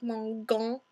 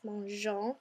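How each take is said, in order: First: The G is a hard sound. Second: The G is a soft sound. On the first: The speaker calls it wrong. "it would make a really hard G like mangon" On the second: The speaker calls it right. "make it all flowy and sound soft and pretty, so it's mangeons"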